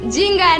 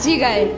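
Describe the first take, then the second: First: A nasal 'ng' sound comes before the 'g'. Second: A plain 'g' with no nasal sound before. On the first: The speaker calls it wrong. "জিঙ্গায় না" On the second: The speaker calls it right.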